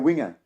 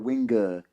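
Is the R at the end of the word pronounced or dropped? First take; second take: dropped; pronounced. First: The final R sound is dropped. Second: The final R sound is clearly pronounced. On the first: "but we go winger" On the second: "they pronounce the R"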